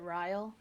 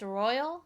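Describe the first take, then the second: First: The name is said like 'rile'. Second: The name is said like 'royal'. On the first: The speaker calls it wrong. "personally speaking, I would pronounce it Ryle" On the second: The speaker calls it right. "it's supposed to be pronounced Royal, like like royalty royal"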